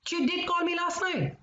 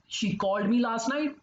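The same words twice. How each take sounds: First: Did call said much higher; indignant, emphatic did; insistent stress on did. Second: Said in the usual way. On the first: Acted. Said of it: "What are you talking about?".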